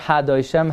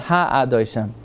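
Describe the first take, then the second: First: The 'a' vowel before 'doishem' is swallowed. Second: The 'a' vowel before 'doishem' is pronounced. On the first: The speaker calls it wrong. "Not Ha Doishem" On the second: The speaker calls it right. "you pronounce the a"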